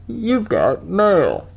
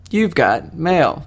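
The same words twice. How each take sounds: First: Slow, higher put-on announcement; drawn-out imitation of the AOL voice; AOL mail greeting. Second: Said in the usual way. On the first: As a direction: stretch it out like a computer greeting. Recites the AOL catchphrase, then plain repeat.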